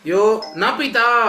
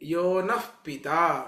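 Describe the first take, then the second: First: The word na ends with a plain vowel. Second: The word na ends with a breathy h. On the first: He is not our father. The speaker calls it wrong. "ಅಂತ ಹೇಳ್ಬಿಟ್ರೆ ಯಾರು ನನಗೆ ಅಪ್ಪನಲ್ಲವೋ" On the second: He is our father. The speaker calls it right. "ನಹ ನಕಾರಕ್ಕೆ ಉಪಸರ್ಗ ಬೇಕು"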